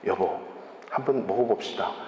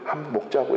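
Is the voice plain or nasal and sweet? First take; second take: plain; nasal and sweet. First: It is said in a plain, consulting voice. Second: It is said in a sweet, nasal voice.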